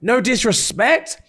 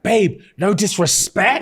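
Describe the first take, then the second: First: Slow, even higher patronising repeat; condescending. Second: Slow, much higher patronising opener; condescending. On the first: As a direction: drag it out, talking down. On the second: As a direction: talk down to her slowly. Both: Retold or imitated. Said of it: "and he's like".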